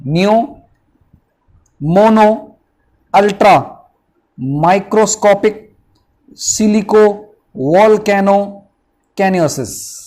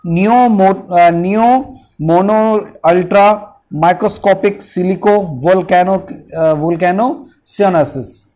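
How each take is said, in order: First: नियो, मोनो, अल्ट्रा, माइक्रोस्कोपिक, सिलिको, वोल्केनो, कैनोसिस each set apart by pauses; syllable by syllable. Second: नियो मोनो अल्ट्रा माइक्रोस्कोपिक सिलिको वोल्केनो joined in one quick flow; now say the full word straight through; whole word run together. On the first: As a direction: break it into its parts, slow on सिलिको. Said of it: "दोबारा देख लो". (टुकड़ों में धीरे-धीरे बोलना) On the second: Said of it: "अब इसको पूरा बोल के देखते हैं". (पूरा शब्द एक साथ बोलना) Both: Shown as a demonstration.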